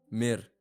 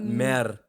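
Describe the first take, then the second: First: The vowel sounds close, like 'ee'. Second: The vowel sounds open, like 'eh'. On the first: The speaker calls it right. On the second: The speaker calls it wrong. "Not mer"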